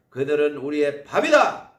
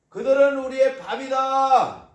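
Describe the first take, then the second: First: Said in the usual way. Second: 그들은 hit higher and louder; emphatic repeat. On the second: Shown as a demonstration. Preacher repeats the spies' boast, emphatic. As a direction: punch 그들은, a bold triumphant declaration. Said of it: "repeated with emphasis".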